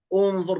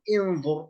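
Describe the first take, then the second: First: The word begins with a u vowel. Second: The word begins with a non-u vowel. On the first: The speaker calls it right. "بالضم" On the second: The speaker calls it wrong. "لا نقول"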